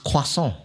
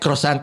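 First: The word is said with a French pronunciation. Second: The word is said with an English pronunciation. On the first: The speaker calls it right. "I said it like a French guy" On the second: The speaker calls it wrong. "Don't say it like croissant, I'll punch you"

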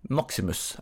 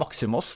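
First: The name is pronounced the Latin way. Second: The name is pronounced the Greek way. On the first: "det kommer an på om du skal si det på latin eller gresk" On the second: "det kommer an på om du skal si det på latin eller gresk"

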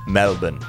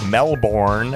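First: It is said with an Australian pronunciation. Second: It is said with an American pronunciation. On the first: The speaker calls it right. "Down there, they say Melbourne" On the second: The speaker calls it wrong. "It's not Melbourne, as we say in the United States"

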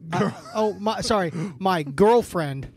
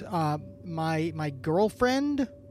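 First: It sounds forceful, like an exclamation. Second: It sounds like a question, rising and uncertain. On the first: The speaker asserts the relationship firmly. "Now it's an exclamation mark" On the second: The speaker is unsure what to call the relationship. "Why are you saying that with a question mark?"

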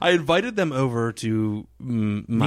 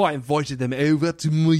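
First: It is said in the speaker's ordinary accent. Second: It is said in a put-on Australian accent.

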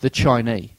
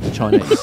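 First: The final consonant of the word is dropped. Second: The final consonant of the word is pronounced. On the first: The speaker calls it wrong. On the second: The speaker calls it right.

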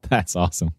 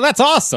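First: It is said in the speaker's natural voice. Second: It is said in Kira's character voice.

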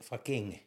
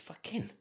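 First: The final G sound is pronounced. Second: The final G sound is dropped. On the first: The speaker calls it wrong. "I said fucking" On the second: The speaker calls it right. "you don't say the G in the end"

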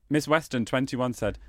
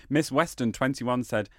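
No difference in how they are said.

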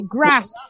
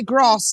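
First: It is said with a northern English accent. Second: It is said with a southern English accent.

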